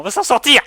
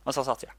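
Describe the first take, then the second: First: Higher and louder rallying cry; rallying shout. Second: Said in the usual way. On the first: Real, not acted. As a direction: shout it to lift morale. Rallying partner. (cri d'encouragement)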